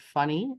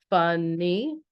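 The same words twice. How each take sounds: First: Said in the usual way. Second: "Funny" split into two drawn-out beats, fun-ny; syllable by syllable. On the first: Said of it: "which is a two-syllable word". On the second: Shown as a demonstration. Teacher taps out syllables for class, "Funny" broken into fun-ny. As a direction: sound out "Funny" slowly, one syllable at a time. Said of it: "Let's try it".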